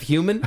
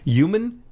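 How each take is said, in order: First: The word starts with a clear h sound. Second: The word starts without an h sound. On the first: The speaker calls it right. "instead of human" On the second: The speaker calls it wrong. "they're now saying human"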